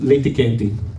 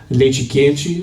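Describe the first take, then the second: First: It is said in the Italian-influenced Curitiba accent. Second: It is said in standard Brazilian Portuguese.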